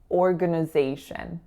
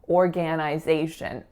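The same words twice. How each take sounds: First: The second and third syllables use reduced schwas. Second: The start sounds like the full word organ. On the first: The speaker calls it right. "schwa on that second and third syllable" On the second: The speaker calls it wrong. "it looks like organ, organization, but the grand majority of folks aren't going to say that"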